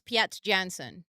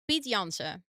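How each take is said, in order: First: The name is said with an English accent. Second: The name is said with a Dutch accent.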